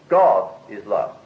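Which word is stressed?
God. The stress falls on the word God. Nothing besides God is this. "Or if I put the pronunciation different"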